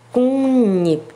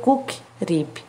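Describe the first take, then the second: First: The first syllable ends in a nasal NG sound. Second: The first syllable ends in a hard K sound. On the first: The speaker calls it right. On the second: The speaker calls it wrong. "Não vai ser cook rip"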